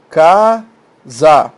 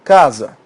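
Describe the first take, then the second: First: Casa split slowly into CA, pause, SA; casa in two held, separate syllables. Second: Said in the usual way. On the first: Shown as a demonstration. Teacher separating syllables for students, casa split in two, louder. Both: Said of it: "Separa em sílabas".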